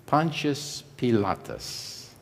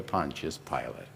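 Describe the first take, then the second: First: PILATUS said in full Latin form, slowly; original Latin pronunciation. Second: PILATE in English, shortened to two syllables; anglicized pronunciation. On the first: Preacher introduces the palace's owner by Latin name, original pronunciation. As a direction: say "Pilatus" slow and soft, keeping the Latin ending. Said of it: "We've anglicized his name". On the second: Preacher explains the familiar form of the name, anglicized pronunciation. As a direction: say "Pilate" the everyday English way, like "pilot". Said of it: "anglicized his name to".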